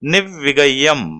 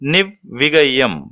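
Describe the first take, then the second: First: The vowel in the second syllable is short. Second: The same.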